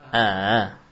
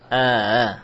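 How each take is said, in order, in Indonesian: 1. Hamza kedua dilunakkan, berada di antara hentian dan vokal. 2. Hamza kedua dilunakkan, berada di antara hentian dan vokal.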